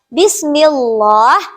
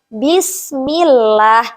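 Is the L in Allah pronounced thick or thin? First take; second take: thick; thin. First: The L in Allah is pronounced thick. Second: The L in Allah is pronounced thin. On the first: The speaker calls it wrong. "Tidak diperbolehkan" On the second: The speaker calls it right. "melainkan Bismillah, tipis saja"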